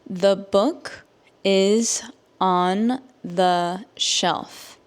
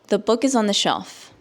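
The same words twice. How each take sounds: First: The sentence is spoken slowly. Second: The sentence is spoken at normal speed. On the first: "I will say it slowly so that you can understand" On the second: "at a normal native English speaker speed"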